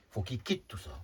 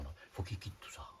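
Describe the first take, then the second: First: Said in the usual way. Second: Hushed, softer whispered line. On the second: Real, not acted. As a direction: drop to a whisper to stress it. Insiste sur l'abandon du monde. (chuchoté, à voix basse)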